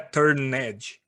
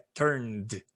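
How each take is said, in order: First: The ending is an extra syllable. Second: The ending is a plain D sound. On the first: The speaker calls it wrong. "não é turned" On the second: The speaker calls it right. "É turned"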